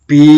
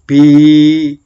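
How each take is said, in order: First: The vowel is short. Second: The vowel is held long.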